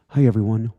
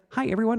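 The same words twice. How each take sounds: First: The voice is pitched lower. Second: The voice is pitched higher. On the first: This is how the voice sounds now. "My my voice dropped an octave" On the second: This is how the voice sounded years ago. "I was listening to some of our original videos. And it's like"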